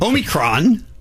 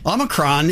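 First: It is pronounced the common British way. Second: It is pronounced the common American way. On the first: "that you say it in the U.K" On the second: "is more popular in the U.S"

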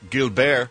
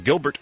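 First: The name is said with a French accent. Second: The name is said with an American accent.

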